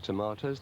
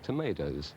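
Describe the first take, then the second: First: It is said the British way. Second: It is said the American way.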